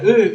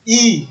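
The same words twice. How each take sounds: First: Said in the usual way. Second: E said "ee", as in the English alphabet; English letter E. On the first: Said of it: "Ça s'écrit avec un E". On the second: Shown as a demonstration. Teacher reciting the English alphabet, E said as "ee". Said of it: "et en anglais, on dit".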